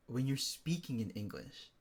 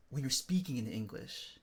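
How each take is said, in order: Both takes have the same delivery.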